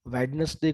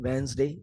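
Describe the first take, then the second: First: A clear d sound is pronounced. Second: The n runs straight into a z sound. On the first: The speaker calls it wrong. "कुछ लोग बोलते हैं" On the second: The speaker calls it right. "न के साथ जेड sound mix हो जाएगी"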